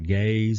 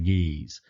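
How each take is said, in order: First: The word rhymes with days. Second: The word rhymes with peace.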